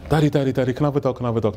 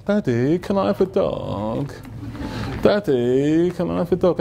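First: Put-on rapid, repeated child's begging; mimicked eager little girl; pestering daughter. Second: Slow, drawn-out wheedling; mimicked daughter sweetly begging; sweet little girl. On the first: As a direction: nag Dad in a quick, lightly voiced kid way. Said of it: "My daughter wanted a dog". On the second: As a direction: melt Dad with a stretched, pleading question. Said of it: "your sweet little girl".

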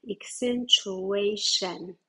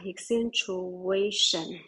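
First: Accentuation, slow, stress on -a-; stress on the third syllable. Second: Accentuation with the stress on -a-, like the slow take; stress on the third syllable. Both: Shown as a demonstration. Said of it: "你看它的重音右边了啊".

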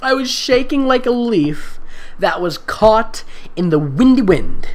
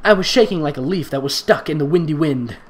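First: Slow, higher dramatic reading, punching "windy"; mock dramatic reading. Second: Said in the usual way. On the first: Shown as a demonstration. Reader mocking the silly simile with dramatic flair. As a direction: overact the line's drama. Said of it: "Why do you think this is a good thing". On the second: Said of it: "repeated reading".

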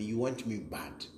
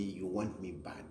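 First: Said in the usual way. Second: You want me bad, dropped much softer; a softer, knowing repeat; quieter taunt. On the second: Real, not acted. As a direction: let "bad" sink to a low hush. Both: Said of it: "You really want me".

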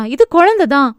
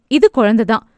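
First: குழந்தை pressed higher and harder, insisting; insistent repeat. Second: Said in the usual way. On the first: A narrator's reading. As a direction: lean on குழந்தை, higher, sure of it. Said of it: "என்றாள் மீண்டும்". (குழந்தை என்பதை அழுத்தி உறுதியாக சொல்வது) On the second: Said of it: "உறுதியாக சொல்ல".

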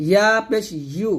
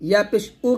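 First: ইউ with a clear y glide before "oo"; correct yu. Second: উ as a bare "oo" with no y; wrong hamza u. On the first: Teacher modelling ya with pesh, clear glide in ইউ. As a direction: lead into ইউ with a firm y. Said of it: "বলবেন ইয়া পেশ ইউ". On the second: Teacher showing the common mistake, glide-less উ. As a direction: drop the glide and say plain উ. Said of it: "কিন্তু হবে না". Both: Shown as a demonstration.

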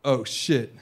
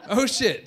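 First: Lightly acted lapse, pitched down; server's realization. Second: Higher-pitched mock disbelief; incredulous echo. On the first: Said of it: "And then he goes". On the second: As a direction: repeat it as if you can't believe it. Repeats server's words in disbelief.

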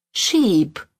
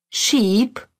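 First: "sheep" said with a falling tune that closes the pair; plural sheep. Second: "Sheep" said with a rising tune, as the first item of a pair; singular sheep. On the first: Teacher giving the plural "sheep" to learners, falling tune. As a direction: let "sheep" drop to a final fall. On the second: Teacher reading the singular "Sheep" to learners, rising tune. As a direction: lift the end of "Sheep" like a list item. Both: Shown as a demonstration.

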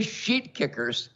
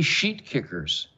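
First: "sheet" drawn out slowly at a higher pitch; stress on SHEET. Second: Said in the usual way. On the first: Shown as a demonstration. Host showing the word he is allowed to say, "sheet" stressed slowly. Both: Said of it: "I could say sheet kickers".

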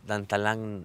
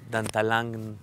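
The two takes are said the same way.

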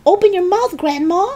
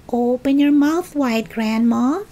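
First: Very high, urgent call; urgent cry. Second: Put-on higher-pitched boy George, drawn-up sing-out; George coaxing. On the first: George with a jug of water, crying out. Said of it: "he cried". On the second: George to Grandma before giving medicine, coaxing. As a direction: coax her lightly in a higher voice. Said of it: "he said". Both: A narrator's reading.

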